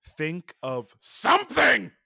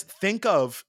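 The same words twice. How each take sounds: First: High, slow, drawn-out aggressive radio line; mock radio menace; gravelly menacing quote. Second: Said in the usual way. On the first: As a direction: growl it out with aggression like the angry driver. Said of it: "I butchered the way that he says it". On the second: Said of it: "in a very normal tone".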